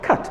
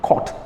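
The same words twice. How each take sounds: First: The vowel is an open unrounded 'uh' sound. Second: The vowel is a rounded 'o' sound. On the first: The speaker calls it right. "but what? Cut" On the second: The speaker calls it wrong. "it is not cut"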